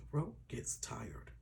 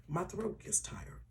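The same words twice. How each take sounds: First: Strained whisper, slow, voice giving out; barely voiced, sparing a sore throat; whispered tired throat. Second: Said in the usual way. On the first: Real, not acted. Vlogger to viewers, whispering with a worn-out voice. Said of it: "or my voice gets tired".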